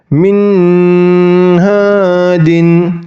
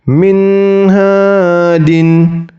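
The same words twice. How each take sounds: First: The n sound is drawn out long. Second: The n sound is held only briefly. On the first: The speaker calls it wrong. "Tidak boleh dibaca panjang. ... Itu bacaan yang salah" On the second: The speaker calls it right. "Jadi nun sukunnya itu hanya satu harokat"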